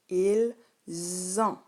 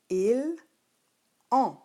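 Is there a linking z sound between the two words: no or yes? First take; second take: yes; no. First: A z sound links the two words. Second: The two words are said without a linking z. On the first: This is how it is spoken. "lorsqu'on le dit, on dit ils ont. Il y a une liaison" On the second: This is how it is written. "Lorsque tu l'écris, tu écris"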